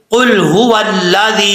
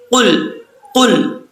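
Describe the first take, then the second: First: Full heavy कुल हुवल्लाजी; heavy qaf. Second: कुल with a thin front k; the mistaken light कुल; wrong light qaf. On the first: Teacher models the correct heavy qul. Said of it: "कॉफ लाम पेश कुल". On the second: Teacher shows the wrong light qul. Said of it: "इसको कुल नहीं पढ़ना". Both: Shown as a demonstration.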